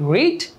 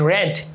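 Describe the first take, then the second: First: The vowel is long, like 'reed'. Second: The vowel is short, like 'red'. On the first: The action happens regularly now. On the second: The action happened in the past.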